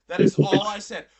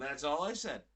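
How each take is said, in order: First: Much louder, stressed denial; forceful protest, voice raised; emphatic insistence. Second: Said in the usual way. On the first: Real, not acted. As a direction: loudly insist on every word. Insisting, swearing to God.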